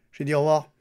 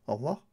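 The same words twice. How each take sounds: First: Firmer and louder au revoir; insistent repeat. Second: Said in the usual way. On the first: Real, not acted. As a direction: say au revoir again, louder, to be obeyed. (répété plus fort et ferme)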